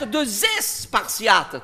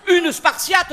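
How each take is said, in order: First: "deux espartiates" with a buzzing zes liaison; slow, drawn-out "espartiates" as zesss-partiates; plural form demonstrated. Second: "spartiate" begun on sp after "Une"; high-pitched "Une spartiate", no es before sp; singular form demonstrated. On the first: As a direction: stretch the added es in "espartiates". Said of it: "tu comprends?". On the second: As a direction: lay out "spartiate" as spar-tiate. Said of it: "faut réfléchir". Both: Shown as a demonstration.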